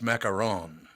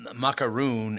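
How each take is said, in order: First: The last syllable sounds like 'ron'. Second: The last syllable sounds like 'roon'. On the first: The speaker calls it right. "and it's macaron" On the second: The speaker calls it wrong. "People say macaroon"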